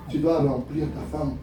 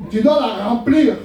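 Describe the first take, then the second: First: Said in the usual way. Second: Slow, weighty "Tu dois la remplir", landing hard on "remplir"; emphatic repeat. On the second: Real, not acted. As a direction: hammer home "remplir", drawn out and louder.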